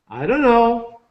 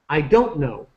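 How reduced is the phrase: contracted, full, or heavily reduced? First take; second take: heavily reduced; contracted. First: The words blur together into a dunno sound. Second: Do not is contracted to don't. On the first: "From I don't know, we say" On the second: "We start to reduce it"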